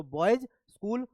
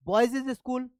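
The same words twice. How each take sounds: First: Said in the usual way. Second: बॉयज इज स्कूल with an added इज sound before स्कूल; wrong extra syllable. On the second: Shown as a demonstration. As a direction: stretch बॉयज into बॉयज इज, then स्कूल. (गलत उच्चारण: बॉयज के बाद अलग से इज बोलना) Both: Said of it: "बॉयज स्कूल नहीं कहेंगे".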